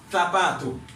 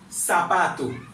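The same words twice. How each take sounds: First: The first sound is a lisped th. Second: The first sound is a hissing s. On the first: "langue entre dents" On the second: "il prononce comme S"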